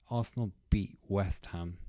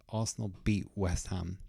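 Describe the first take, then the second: No difference in how they are said.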